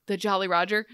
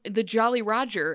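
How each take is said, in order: First: JOLLY stressed, ROGER rising as a question; startled question. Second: JOLLY stressed, ROGER falling at the end; firm statement. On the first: Hook hearing of his ship, startled rising question. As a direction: echo the name in mock disbelief. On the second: Ariel insisting she saw Hook's ship, firm falling statement. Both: Retold or imitated.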